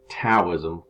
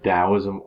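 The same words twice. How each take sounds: First: The word begins with a T sound. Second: The word begins with a D sound. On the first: "with a T" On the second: "pronounced with a D, like I just said"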